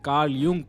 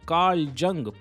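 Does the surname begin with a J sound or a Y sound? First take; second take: Y sound; J sound. First: The surname begins with a Y sound. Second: The surname begins with a J sound. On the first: The speaker calls it right. "इसे Karl यूंग pronounce किया जाता है और इसमें जे silent है" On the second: The speaker calls it wrong. "जोक सुनाते सुनाते इतना मज़ा आ रहा था"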